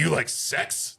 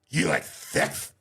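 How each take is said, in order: First: The s sounds are spoken clearly, without a lisp. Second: The s sounds are spoken with a lisp. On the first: The speaker calls it right. "that sounds a little bit more like it" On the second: The speaker calls it wrong. "I thought he had a lisp"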